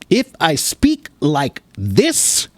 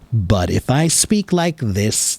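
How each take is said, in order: First: The words are short and detached, choppy. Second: The words flow smoothly and calmly together. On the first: The speaker is very serious. "then I'm very serious about something" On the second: The speaker is calm and not serious. "I'm not serious and I'm more calm and relaxed"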